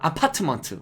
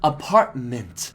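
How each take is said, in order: First: The final syllable sounds like 'month'. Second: The final syllable sounds like 'mint'. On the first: The speaker calls it wrong. "막 그렇게 배우잖아요" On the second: The speaker calls it right. "month 아니고 mint입니다"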